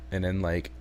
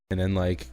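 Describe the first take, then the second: No difference in how they are said.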